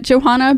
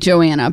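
First: The name is said with an h sound. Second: The name is said without an h sound. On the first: This is a preferred pronunciation that suits the book. "I really like pronouncing it Johanna" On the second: This is the name's actual pronunciation. "it's actually Joanna"

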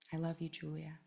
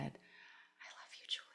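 First: It is spoken aloud, somewhat louder. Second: It is whispered very quietly. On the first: "And then I said it a little louder" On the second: "I just whispered like really quietly at first"

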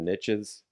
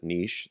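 First: The vowel is short, ending in a 'tch' sound. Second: The vowel is long, ending in an 'sh' sound. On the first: "the riches are in the niches" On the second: "if you pronounce it niche, then that doesn't really rhyme"

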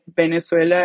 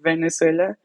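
First: The word begins with a B sound. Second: The word begins with a V sound. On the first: This is how it is said at home in Venezuela. "like the V and the B, we pronounce it the same. So like for us, we say like Venezuela" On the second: This is how it is said elsewhere. "instead of Venezuela"

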